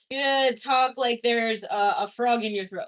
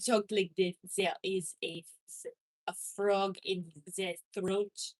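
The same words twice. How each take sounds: First: Said in the usual way. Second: Low croaky voice; frog in throat. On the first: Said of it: "talk like there's a frog". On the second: Shown as a demonstration. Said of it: "talk like there's a frog in your throat".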